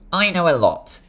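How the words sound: It is said in a put-on character voice.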